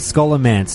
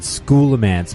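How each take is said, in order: First: The first syllable does not sound like 'school'. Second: The first syllable sounds like the word 'school'. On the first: "we're going with Scholomance" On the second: "it's a portmanteau of school and necromancy"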